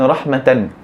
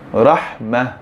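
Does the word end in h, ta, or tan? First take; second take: tan; h. First: The word ends with the syllable tan. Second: The word ends with a soft h sound. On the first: The reading continues without stopping. "Contoh perkataan rahmatan" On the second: The reader stops on this word. "Jadi kita membacanya dengan rahmah, bukan rahmata"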